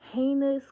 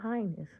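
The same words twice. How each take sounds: First: The word does not sound like 'highness'. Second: The word sounds like the royal title 'highness'. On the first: The speaker calls it right. "Let me say it right" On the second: The speaker calls it wrong. "not heinous. Not that, not royal stuff"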